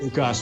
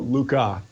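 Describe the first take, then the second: First: The name ends with a clear S sound. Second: The name ends without an S sound. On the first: This is how English speakers usually say it. The speaker calls it wrong. "Anglo-Saxons tend to call it Lucas with the, with the S" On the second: This is the original French pronunciation. The speaker calls it right. "the correct French pronunciation"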